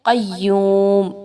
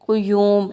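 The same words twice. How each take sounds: First: The q sound is followed by an a vowel. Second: The q sound is followed by a u vowel. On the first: The speaker calls it right. "बल्कि ये जो लफ्ज़ है वो क्या है" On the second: The speaker calls it wrong. "अक्सर लोग यहाँ पे क़ाफ पे पेश लगाते हैं ... ऐसे नहीं है"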